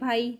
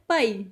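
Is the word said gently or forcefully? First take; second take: gently; forcefully. First: It is said gently and politely. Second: It is said more forcefully. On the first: "Hindi में बोलते हैं भाई तो बिल्कुल पोलाइट वे में" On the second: "पंजाबी में इसको बोलते हैं तब बोलते हैं पाई, मीन्स थोड़ा ज़ोर से"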